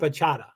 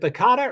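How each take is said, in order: First: The middle consonant is a soft CH sound. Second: The middle consonant is a hard K sound. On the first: "or a soft C H?" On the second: "Is it a hard C"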